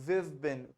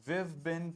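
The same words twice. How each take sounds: The two takes are said the same way.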